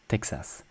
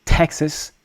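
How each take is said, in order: First: Texas low and soft, as tek-SAS; no puff on the T of Texas; soft French T. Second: Texas higher, with aspirated T; T-HEK-sus, hit the T of Texas; hard English T. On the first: Teacher asks learners to focus, soft French T in Texas. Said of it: "a lot softer with consonant sounds". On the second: Teacher asks learners to focus, hard English T in Texas. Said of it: "focus on the pronunciation of T E". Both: Shown as a demonstration.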